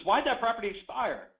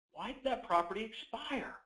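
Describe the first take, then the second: First: "Why did that property expire?" asked high and loud with weight on "that"; direct pointed tone. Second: "Why did that property expire?" asked high but softer, "that" leaned on gently; softer curious tone. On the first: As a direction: press on "that", firm and direct. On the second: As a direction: ask it lightly, curious not pushy. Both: Shown as a demonstration. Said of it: "You hear the tonality".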